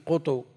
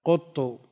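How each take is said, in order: First: قط with rounded qaf and short undoubled ta before u; two dammas, lightened. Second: قط with rounded qaf and doubled ta ending in u; two dammas. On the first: Teacher shows the rarest form, قط said "qutu". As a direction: say قط as "QU-tu", both vowels u, single t. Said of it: "ومنهم من يضمهما مع التخفيف". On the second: Teacher shows a variant form, قط said "quttu". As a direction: say قط as "QUT-tu", u in both syllables. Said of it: "بضمتين". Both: Shown as a demonstration.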